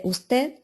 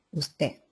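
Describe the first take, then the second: First: Said in the usual way. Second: Usted without the final d, uste; dropped d. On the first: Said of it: "en vez de usted". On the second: Shown as a demonstration. Teacher demos Andalusian lost final d: usted said uste. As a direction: let the d of usted fall away. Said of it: "Pérdida de las consonantes finales".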